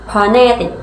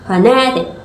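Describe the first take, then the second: Both takes have the same delivery.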